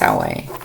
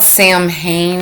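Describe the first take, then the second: First: The word sounds like 'Sow-win', without an 'm'. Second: The word sounds like 'Sam-hain', as spelled. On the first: The speaker calls it right. "I think it's Salway" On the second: The speaker calls it wrong. "that's not how you pronounce it"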